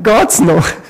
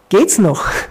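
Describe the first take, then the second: First: It is said with a Swiss German accent. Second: It is said without a Swiss German accent.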